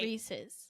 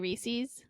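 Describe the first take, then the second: First: The name is said as Reese plus possessive. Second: The name is said in the Florida way. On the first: It belongs to a man named Reese. "Re- the guy Reese. It's his Reese's" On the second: This is a regional habit. "I used to say Reese's, and that's like a very Florida thing to say"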